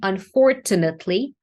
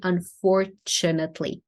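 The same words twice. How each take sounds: First: The middle consonant is a plain t sound. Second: The middle consonant is a ch sound. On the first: The speaker calls it wrong. "you said unfortunately with a T" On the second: The speaker calls it right. "So it's a ch here"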